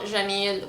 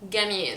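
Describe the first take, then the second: First: It starts with a J sound. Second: It starts with a hard G sound.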